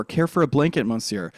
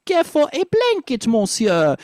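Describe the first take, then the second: First: Said in the usual way. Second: "blanket" lifted high in a French accent. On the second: Shown as a demonstration. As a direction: lift the line up high, French style. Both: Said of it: "So it'd be".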